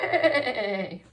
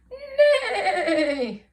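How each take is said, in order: First: It is said plainly, without much energy. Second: It is said as a big, lively whinny.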